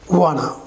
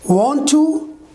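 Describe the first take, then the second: First: The words are blended into one reduced word. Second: Both words are said fully and separately.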